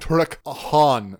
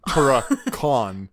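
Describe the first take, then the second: First: The name is split with a clear break. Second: The name is run together as one word. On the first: The speaker calls it right. "I'm saying Turok Han" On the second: The speaker calls it wrong. "not Turakon"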